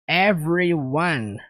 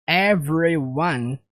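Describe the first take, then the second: Both takes have the same delivery.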